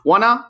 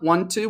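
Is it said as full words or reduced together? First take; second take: reduced; full. First: The two words are reduced and run together. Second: The two words are said fully and separately.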